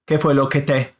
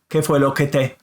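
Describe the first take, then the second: Both takes have the same delivery.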